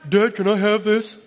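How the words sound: An older child asks in a demanding tone.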